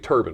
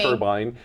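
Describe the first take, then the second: First: The second syllable sounds like 'bin'. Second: The second syllable sounds like 'bine'. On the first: "I know you say it correctly" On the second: "how I say turban. Some people say"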